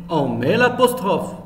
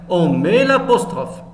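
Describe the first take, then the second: The two takes are said the same way.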